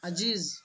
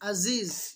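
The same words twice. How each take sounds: First: The middle consonant is a j sound. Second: The first consonant is a plain glottal stop. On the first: "যাকে জিম করে দেয়" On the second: "আইনটাকে হামজা করে দেয়"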